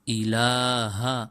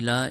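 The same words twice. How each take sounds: First: The word ends with a final 'ha' syllable. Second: The word ends without the final 'ha' syllable. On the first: The speaker calls it right. "उसके साथ हा भी है" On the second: The speaker calls it wrong. "अमूमन लोग पढ़ते हैं इसको"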